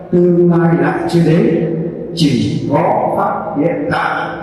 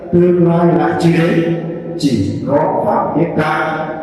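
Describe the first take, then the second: The two takes are said the same way.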